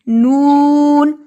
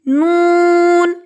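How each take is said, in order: First: Lips are rounded and the voice stays low. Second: Lips are not rounded and the voice goes higher. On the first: The speaker calls it right. "दोनों होंठ गोल करके बाहर की तरफ करेंगे तो आवाज नीचे रहेगी" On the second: The speaker calls it wrong. "अगर ये होंठ सही से गोल नहीं किए तो आवाज ऊपर जाएगी"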